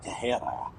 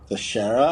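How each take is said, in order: First: The name is pronounced in a Spanish-sounding way. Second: The name is pronounced in a plain English way.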